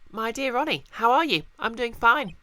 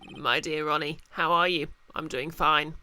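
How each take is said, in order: First: It is read in an imitated woman's voice. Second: It is read in the speaker's ordinary voice.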